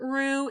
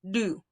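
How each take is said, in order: First: It starts with an English-style R sound. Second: It starts with a quick tongue flap. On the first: The speaker calls it wrong. "It's not ru" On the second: The speaker calls it right. "It's just a tongue flap"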